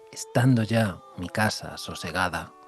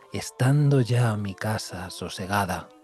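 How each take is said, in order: Both takes have the same delivery.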